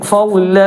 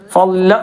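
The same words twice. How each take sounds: First: The final vowel is lengthened. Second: The final vowel is cut short. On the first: The speaker calls it right. "ഒന്ന് അല്പം നീട്ട" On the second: The speaker calls it wrong. "നിർത്തേണ്ടത് ഫള എന്നല്ല"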